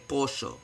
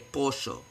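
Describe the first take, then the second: First: It is said in an Argentinian Spanish way. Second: The same.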